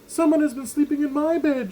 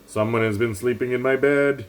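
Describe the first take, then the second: First: It is said in an impatient voice. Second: It is said in a loud, rumbly, growling voice.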